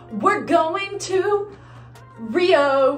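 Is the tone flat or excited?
excited. It is said in a more excited tone.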